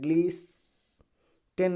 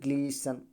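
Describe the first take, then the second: First: The t sound is pronounced in the middle. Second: The t sound is left out entirely. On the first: The speaker calls it wrong. "ग्लीस्टेन नहीं पढ़ा जाएगा" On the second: The speaker calls it right. "केवल ग्लीसन पढ़ा जाएगा"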